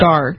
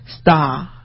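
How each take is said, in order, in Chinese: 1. 这是用美式口音说的。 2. 这是用英式口音说的。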